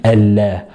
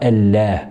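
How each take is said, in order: Both takes have the same delivery.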